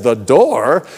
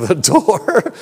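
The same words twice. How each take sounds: First: Questioning. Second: Incredulous inner voice. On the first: Listener questions the preacher's odd reason, puzzled. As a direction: echo it back as a puzzled question. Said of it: "she says". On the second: Preacher's own mind doubts his answer, incredulous. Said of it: "part of me is like". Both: Retold or imitated.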